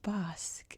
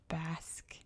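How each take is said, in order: First: The word is said with a non-English pronunciation. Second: The word is said with the English pronunciation. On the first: The speaker calls it wrong. "I would always call this place Basque" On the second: The speaker calls it right. "it's pronounced Basque in English"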